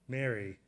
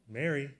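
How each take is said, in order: First: The name is said softly and gently. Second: The name is said with a smiling, warm voice. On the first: "kind of shaking his head softly, gently?" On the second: "Did he say it with a smile?"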